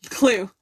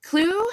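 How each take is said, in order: First: Said in the usual way. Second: "Clue?" asked with a high rise; "Clue?" asked as a puzzled question, pitch going up at the end; "Clue?" lifted up high like a question. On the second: Real, not acted. Asking which clue is next.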